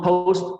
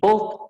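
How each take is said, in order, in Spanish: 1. La vocal se desliza de o hacia u. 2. La vocal es una o simple y corta. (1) "pero es O U" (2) "no post ni post, porque eso hace que suene distinto"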